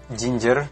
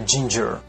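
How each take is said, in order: First: The starting j is soft, Indonesian style. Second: The starting j is released strongly with rounded lips. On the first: The speaker calls it wrong. "Bukan uh" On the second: The speaker calls it right. "Dibaca ginger"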